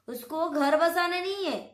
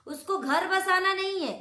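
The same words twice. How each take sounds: The two takes are said the same way.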